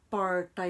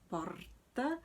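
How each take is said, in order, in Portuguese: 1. O R é retroflexo. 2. O R é vibrante. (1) "é o R estigmatizado" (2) "esse é o R herdado"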